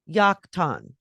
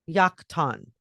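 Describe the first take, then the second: First: The name starts with a Y sound. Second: The same.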